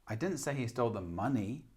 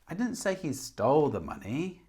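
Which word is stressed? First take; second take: money; stole. First: The stress falls on the word money. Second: The stress falls on the word stole. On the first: He stole something else. "Or money" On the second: He took it but did not steal it. "Maybe he took it but didn't steal it"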